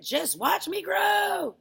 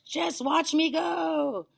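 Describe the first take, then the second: First: Very high, drawn-out yell; triumphant shout. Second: Very high, drawn-out holler; triumphant call. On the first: Grandma showing off her growth, triumphant shout. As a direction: shout it slowly, stretching the last word. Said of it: "she shouted". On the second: Grandma calling down to boy, triumphant holler. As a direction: holler it slowly from above. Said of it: "she called down to George". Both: A narrator's reading.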